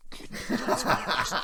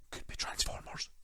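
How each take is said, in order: First: High whispery giggle through the words; breaking into laughter. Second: Soft whispered rumour; secret whisper. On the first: The rumour joke breaks him up, giggling through it. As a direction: laugh it out breathlessly. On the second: Teasing a rumoured download, a hushed whisper. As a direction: whisper it like you're eavesdropping. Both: Pretend. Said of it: "if I put my ear up against the wall".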